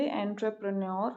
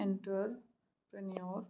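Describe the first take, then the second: First: Said in the usual way. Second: एंटरप्रेन्योर sounded out as "enter-pren-yor"; quiet, broken-up "enter... prenyor" for एंटरप्रेन्योर; misspelt-option reading. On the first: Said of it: "ठीक लग रहा है". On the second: Shown as a demonstration. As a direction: read एंटरप्रेन्योर softly in pieces, with "enter" at the front. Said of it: "B थोड़ा गलत है".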